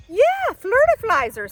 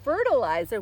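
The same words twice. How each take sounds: First: "Yeah, flirtiflizer." much higher and louder, delighted; playful repeat. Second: "Fertilizer." said properly, fer-ti-li-zer; correct pronunciation.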